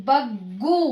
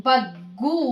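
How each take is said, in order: No difference in how they are said.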